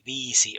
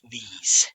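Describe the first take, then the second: First: The word ends with a final vowel sound. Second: The final vowel is dropped; it ends in s. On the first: "you would say viisi" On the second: "or only viis"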